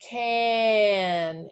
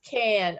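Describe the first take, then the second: First: The word is drawn out slowly, sound by sound. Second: The word is said quickly as one blended unit.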